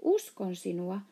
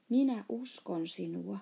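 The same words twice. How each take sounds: First: Mild, insistent outcry; exclaimed assurance. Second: Gently reassuring, mildly softened; soft voice. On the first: Sohvi hurries to reassure offended IKJ, mildly exclaimed. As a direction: cry it out to convince, short of shouting. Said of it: "huusi Sohvi". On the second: Sohvi reassures hurt IKJ, in a gentle soft voice. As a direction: say it tenderly, without pushing. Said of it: "se sanoi pehmeällä äänellä". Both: A narrator's reading.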